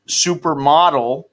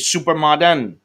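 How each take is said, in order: First: The word ends with a clear L sound. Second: The final L is pronounced as an N. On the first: "if it's supermodel" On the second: "their way of saying it is supermodern"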